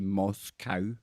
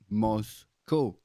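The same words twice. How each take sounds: First: The last syllable rhymes with cow. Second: The last syllable rhymes with go. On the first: The speaker calls it wrong. "you guys over in America like to say Moscow because it looks like cow on the end" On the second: The speaker calls it right. "We pronounce that in Europe as co, like Moscow"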